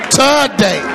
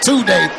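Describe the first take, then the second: First: It is said in an old-folks style. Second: It is said in a plain style. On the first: "Like old folks say" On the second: "Not today"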